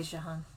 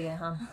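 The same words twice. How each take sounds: First: "Jehan" opening like the s in "measure"; soft J pronunciation. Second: "Jehan" starting like "yeh"; Y pronunciation. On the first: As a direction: say "Jehan" with a French zh at the start. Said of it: "It might be Jehan". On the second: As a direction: say "Jehan" with an initial Y sound. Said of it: "I say Jehan". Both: Shown as a demonstration.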